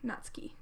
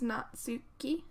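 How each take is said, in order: First: The name is said quickly, syllables run together. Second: The name is said slowly, syllable by syllable. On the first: "I'm just saying it quickly" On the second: "it's Natsuki"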